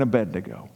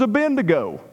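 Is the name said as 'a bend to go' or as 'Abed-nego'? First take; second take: Abed-nego; a bend to go. First: The name is said in its standard form. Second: The name is said like 'a bend to go'. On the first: The speaker calls it right. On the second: The speaker calls it wrong.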